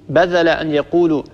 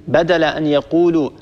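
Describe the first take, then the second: No difference in how they are said.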